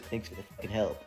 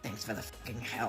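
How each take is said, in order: First: It is said in the speaker's plain voice. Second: It is said in the coworker's imitated voice.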